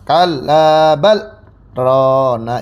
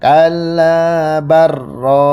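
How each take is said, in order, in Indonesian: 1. Ada jeda singkat yang memisahkan 'bal' dari 'rana'. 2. Bunyi 'l' langsung menyatu ke 'r' tanpa berhenti. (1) "berhenti sejenak tanpa nafas" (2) "lam ke rohnya itu diidghamkan"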